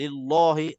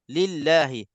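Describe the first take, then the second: First: The L is pronounced thick and heavy. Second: The L is pronounced thin and light. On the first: The speaker calls it wrong. "ditebalkan juga" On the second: The speaker calls it right. "Di sini dibaca tipis"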